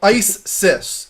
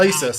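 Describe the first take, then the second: First: It is said as two separate words. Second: It is said as one joined word. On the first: The speaker calls it right. "It's too separate" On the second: The speaker calls it wrong. "Don't read it like the terrorist group"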